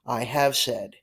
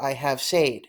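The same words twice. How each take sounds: First: "said" rhymed with "bed"; "said" as "sed", modelled for learners; correct "said". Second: "said" wrongly rhymed with "made"; "said" as "sayed", the learner's mistake; mispronounced "said". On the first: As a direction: say "said" with a short e. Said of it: "This word is pronounced". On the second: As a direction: say "said" with a long ay vowel. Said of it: "You do not wanna say". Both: Shown as a demonstration.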